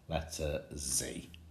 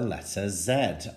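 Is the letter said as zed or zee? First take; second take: zee; zed. First: The letter is said the American way, zee. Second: The letter is said the British way, zed.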